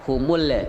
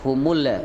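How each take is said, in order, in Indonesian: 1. Huruf L dilepas dengan gema yang memantul. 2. Huruf L dilepas dengan gema yang memantul.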